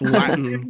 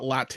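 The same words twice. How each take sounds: First: The t is replaced by a glottal stop. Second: The t is fully released as a clear t. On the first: "I'm globalizing Latin too. Do you hear that?" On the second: "It's not Latin"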